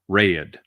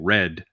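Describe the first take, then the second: First: The vowel is stretched into two sounds. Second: The vowel is short and single. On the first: "the thing with the South where you you create two tones" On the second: "instead of saying red"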